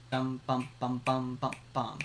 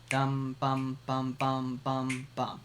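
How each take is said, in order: First: Same dum bum pattern, tighter and quicker; tresillo, quicker. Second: Steady mouthed dum bum pattern; tresillo, slower. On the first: Teacher sings the tresillo quicker, mouthed drum pattern. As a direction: sing the tresillo faster. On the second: Teacher sings the tresillo slowly, mouthed drum pattern. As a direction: sing the tresillo at an easy pace. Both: Shown as a demonstration. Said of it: "Or quicker".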